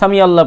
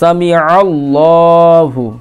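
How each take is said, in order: First: It has a plain vowel before 'allah'. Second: It has a throaty ain sound before 'allah'. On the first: The speaker calls it wrong. "অনেকে সামি আল্লাহ পড়ে ... আলিফের উচ্চারণ" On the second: The speaker calls it right. "এখানে আইন আছে"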